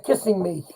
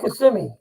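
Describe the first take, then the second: First: The name sounds like the words kissing me. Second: The name is said in its usual form.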